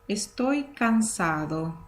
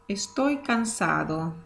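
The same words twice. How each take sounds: Both takes have the same delivery.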